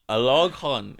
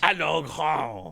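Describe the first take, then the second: First: The name is said plainly, without added flair. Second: The name is said with exaggerated accent and flair.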